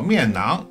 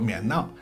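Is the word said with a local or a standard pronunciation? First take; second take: standard; local. First: The word has a standard Mandarin pronunciation. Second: The word has a local regional pronunciation.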